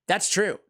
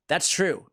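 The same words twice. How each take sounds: The two takes are said the same way.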